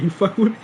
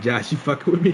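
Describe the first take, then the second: First: Pitched high, nervous disbelief; high disbelieving question. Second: Said in the usual way. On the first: Retold or imitated. Asking his friend Josh if he is joking, in high disbelief. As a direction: squeak it up in shock, half laughing. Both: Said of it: "I literally said it like that".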